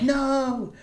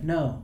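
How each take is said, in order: First: The word is said loudly with urgent emotion. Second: The word is said flatly, without much emotion. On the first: The speaker calls it right. "Instead of, like" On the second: The speaker calls it wrong. "he was frantic, he'd be like"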